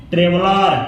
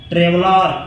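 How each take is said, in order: Both takes have the same delivery.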